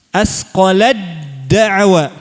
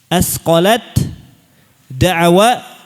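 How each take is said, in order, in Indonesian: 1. Bunyi t menyatu sepenuhnya menjadi d yang ditasydid. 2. Bunyi t terdengar sebelum d.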